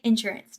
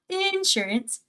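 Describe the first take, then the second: First: "insurance" quick, in her natural everyday way; her own way of saying insurance. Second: "insurance" slower and softer, the rejected version; drawn-out contrasting "insurance"; the other way of saying insurance. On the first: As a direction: say "insurance" as she normally does. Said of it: "I feel like I say insurance". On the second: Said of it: "not insurance". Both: Shown as a demonstration.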